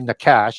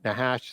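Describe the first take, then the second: First: The middle consonant is a hard K sound. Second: The middle consonant is a breathy H sound. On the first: The speaker calls it wrong. "Some people will say Nakash" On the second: The speaker calls it right. "the C H is an H sound"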